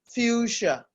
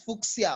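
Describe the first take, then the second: First: The middle consonant is an 'sh' sound. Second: The middle consonant is not an 'sh' sound. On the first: The speaker calls it right. "C H S, still producing the sound sh" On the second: The speaker calls it wrong. "you are tempted to say this is fuchsia or something like that"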